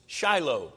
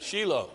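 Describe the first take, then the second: First: Shiloh said SHY-loh, American style; Shiloh pronounced SHY-loh, the English way. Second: Shiloh said SHEE-loh, the Hebrew way; Shiloh pronounced SHEE-loh, stress on the first syllable. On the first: Shown as a demonstration. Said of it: "I say it the right way 'cause I'm an American". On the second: Retold or imitated. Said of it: "that's how they say it".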